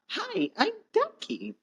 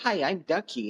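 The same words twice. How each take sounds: First: The voice is higher and more high pitched. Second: The voice is lower and less high pitched. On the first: The character is a child. The speaker calls it wrong. "and not" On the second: The character is grown up. The speaker calls it right. "Ducky's adult voice wouldn't be as high pitched"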